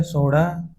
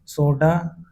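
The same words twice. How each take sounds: First: सोडा with a flapped ṛ; सोडा said as सोड़ा. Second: Said in the usual way. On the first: Shown as a demonstration. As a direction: flick the tongue on the middle of सोडा. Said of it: "अशुद्ध होता". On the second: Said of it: "शुद्ध है".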